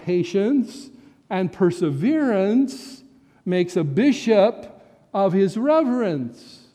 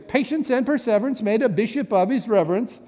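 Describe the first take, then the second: First: The phrase is said at a slow pace. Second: The phrase is said at a quick pace. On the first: "if you slow that down a little bit" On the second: "My father-in-law used to say it this way"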